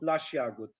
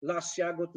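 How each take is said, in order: First: "las jagód" said as "lasz jagód"; "las jagód" lower, sh before j; wrong assimilation. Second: Said in the usual way. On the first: Shown as a demonstration. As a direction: turn the s of "las" into sh. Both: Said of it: "this does not exist".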